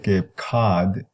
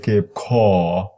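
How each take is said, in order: First: The vowel is an open, unrounded 'ah'. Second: The vowel is a low, rounded, exaggerated 'aw'. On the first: "Many people there wouldn't say Cape Cod" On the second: "They would say Cape Caw"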